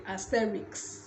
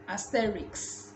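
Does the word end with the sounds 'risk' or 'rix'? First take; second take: rix; rix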